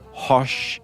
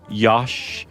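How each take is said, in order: First: The name starts with an H sound. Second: The name starts with a Y sound. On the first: "or Hosh" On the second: "other ways like Yosh"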